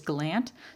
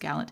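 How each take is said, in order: First: It is pronounced the local Nova Scotia way. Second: It is pronounced differently from the local way. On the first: This is how the local first name is said. "Here in Nova Scotia, it's a common first name, which is Gallant" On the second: This is how the person himself says it. "so I think it's Gallant"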